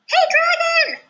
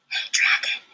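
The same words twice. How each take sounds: First: It is shouted very loudly. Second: It is whispered very softly.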